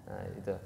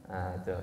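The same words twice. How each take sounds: Both takes have the same delivery.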